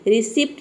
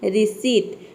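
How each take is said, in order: First: The word is said with a p sound. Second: The word is said without a p sound. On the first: The speaker calls it wrong. "रिसिप्ट नहीं बोलते" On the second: The speaker calls it right. "यहाँ पे हम इसको बोलते हैं रिसीट"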